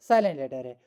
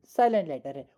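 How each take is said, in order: Both takes have the same delivery.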